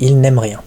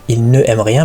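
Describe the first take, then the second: First: The ne is elided and joined to aime. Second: The ne is said as a separate full syllable. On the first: The speaker calls it right. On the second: The speaker calls it wrong. "On ne dit pas"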